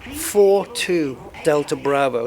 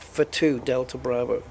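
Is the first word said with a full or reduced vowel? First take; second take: full; reduced. First: The first word has a full, clear vowel. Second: The first word has a short, reduced vowel. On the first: The speaker calls it right. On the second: The speaker calls it wrong. "not for two Delta Bravo"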